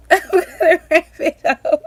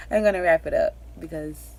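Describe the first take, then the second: First: Much higher and louder, laughing the words. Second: Said in the usual way. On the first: Real, not acted. Emotional mom laughing while repeating that she'll wrap up. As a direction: burst into a laugh as you repeat it. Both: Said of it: "I am getting emotional".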